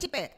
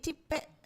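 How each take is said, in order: First: The name is said in a scornful, hostile tone. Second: The name is said in a warm, fond tone. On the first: The nickname is given out of hatred. "intonasinya ... karena kebencian" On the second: The nickname is given out of fondness. "orang memberi nama dulu itu eh, karena senang"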